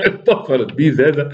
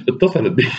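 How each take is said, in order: First: Laughing through the words, higher. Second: Said in the usual way. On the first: Real, not acted. Narrator laughing at Rashid's panic, real laugh. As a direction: crack up while reading it.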